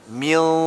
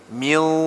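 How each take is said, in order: The two takes are said the same way.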